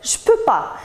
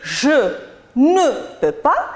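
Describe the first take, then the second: First: The word ne is dropped. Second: The word ne is pronounced. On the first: "il dit juste « je peux pas »" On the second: "au lieu de dire « je ne peux pas »"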